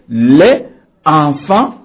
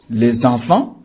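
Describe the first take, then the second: First: The words are said without a liaison sound. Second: The words are said with a liaison sound. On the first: The speaker calls it wrong. "On ne peut pas dire au pluriel" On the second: The speaker calls it right. "On dira"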